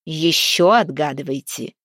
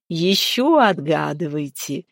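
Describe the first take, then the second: First: Firm commanding order; fiery maiden ordering the travelers. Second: Slow, teasing giantess voice; fiery maiden urging the travelers on. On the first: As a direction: order them to keep guessing. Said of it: "велела дева". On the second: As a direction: relish the demand. Fiery giantess demands more riddles. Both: A narrator's reading.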